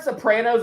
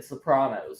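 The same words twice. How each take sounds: First: Sopranos said so-PRAN-os; short "a" as in cat in Sopranos; Sopranos as in show. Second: Sopranos said so-PRAH-nos; broad "ah" in the middle of Sopranos; Sopranos as actors said. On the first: Shown as a demonstration. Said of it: "is how they say it in the show". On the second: Retold or imitated. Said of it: "a couple of the actors said Sopranos".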